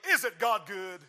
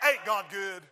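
First: It is said in a standard way. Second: It is said in a country way.

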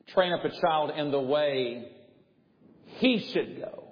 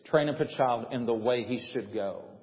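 First: It is read with added emphasis. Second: It is read plainly, without added emphasis.

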